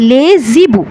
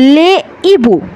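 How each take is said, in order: First: A consonant sound links the words together. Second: The words stay separate with no linking consonant. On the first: The speaker calls it wrong. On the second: The speaker calls it right.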